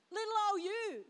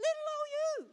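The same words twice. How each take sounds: First: Said in the usual way. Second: Put-on "Little old you" in a tiny high squeak; squeaky small voice. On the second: Shown as a demonstration. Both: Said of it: "repeats with different voice".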